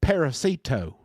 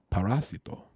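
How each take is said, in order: First: Parasito said PEH-ruh-see-toh, American style; the anglicised parasito with a flat American r; gringo pronunciation. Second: Parasito said pah-RAH-see-toh with a Spanish tapped r; careful Spanish parasito; correct Spanish. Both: Shown as a demonstration. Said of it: "and not parasito".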